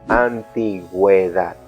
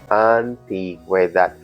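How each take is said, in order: The two takes are said the same way.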